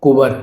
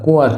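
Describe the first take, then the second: First: कुंवर with a hard middle consonant, "ku-bar"; loud two-beat "kubar" for कुंवर; wrong pronunciation shown. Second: कुंवर softened to "kun-war"; correct pronunciation shown. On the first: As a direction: say कुंवर as "ku-var", no nasal. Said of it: "कुंवर नहीं होता". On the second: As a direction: glide through the w in कुंवर. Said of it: "ये बिल्कुल correct है". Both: Shown as a demonstration.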